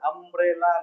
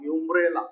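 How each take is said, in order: First: The word starts with a plain vowel sound. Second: The word starts with a 'y' sound. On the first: The speaker calls it right. "ಅಂಬ್ರೆಲಾ ಅಂತೀವಿ" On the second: The speaker calls it wrong. "ಯುಂಬ್ರೆಲಾ ಅನ್ನಂಗಿಲ್ಲ"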